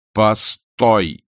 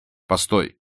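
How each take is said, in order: First: Loud, drawn-out order to stop; forceful command. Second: Short call at normal volume; restrained call to stop. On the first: Vronsky halts Anna at the door, loud insistent command. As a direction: repeat it firmly, stretching the word out. Repeats it as she leaves. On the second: Vronsky stops Anna at the door, first restrained call. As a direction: stop someone without raising your voice. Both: A narrator's reading.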